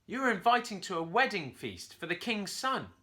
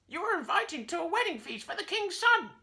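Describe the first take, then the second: First: Higher, louder monkey proclamation; monkey announcing. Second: Very high squawky parrot echo; parrot repeating. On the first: Curly announces the wedding feast to the parrot, loud. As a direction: announce the invitation grandly. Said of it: "Curly announced". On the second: Parrot repeats Curly's invitation, very high and squawky. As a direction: echo every word like a parrot. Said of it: "the parrot repeated". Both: A narrator's reading.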